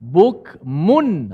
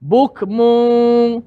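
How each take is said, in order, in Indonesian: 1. Bunyi n akhir dilafalkan jelas dengan ujung lidah. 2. Bunyi n akhir tersembunyi dalam bunyi sengau yang samar. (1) "ha tu maksud jelas" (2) "Ah tu tak jelas"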